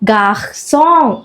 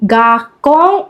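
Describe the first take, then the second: First: The middle consonant is a soft s sound. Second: The middle consonant is a hard k sound. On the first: The speaker calls it right. "ഗാഹ്സോങ് എന്ന് ഉച്ചരിക്കണമെങ്കിൽ" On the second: The speaker calls it wrong. "ഗാക്കോങ് അല്ല"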